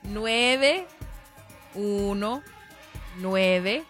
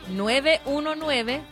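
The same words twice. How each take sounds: First: It is said slowly and deliberately. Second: It is said at a normal, quick pace.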